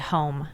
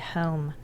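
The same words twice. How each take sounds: First: It is said with a standard American vowel. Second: It is said with a Philadelphia vowel. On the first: "You don't say home" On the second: "in Philadelphia you say home"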